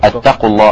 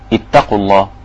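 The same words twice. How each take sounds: First: The first word begins with a u vowel. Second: The first word begins with an i vowel. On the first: The speaker calls it wrong. "بالضم" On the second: The speaker calls it right. "ليه كسرت؟"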